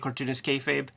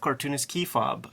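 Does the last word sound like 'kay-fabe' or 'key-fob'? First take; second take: kay-fabe; key-fob. First: The last word sounds like 'kay-fabe'. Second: The last word sounds like 'key-fob'. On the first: The speaker calls it right. "they hear us say cartoonist kayfabe" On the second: The speaker calls it wrong. "but in person, they say, I love cartoonist key fob"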